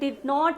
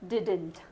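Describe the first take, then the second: First: It is said drawn out as two full words. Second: It is said shortened into one contracted word. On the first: "വലിച്ചങ്ങോട്ട് നീട്ടി പറയുന്നതിന് പകരം" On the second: "ചുരുക്കി പറയാറുണ്ട്"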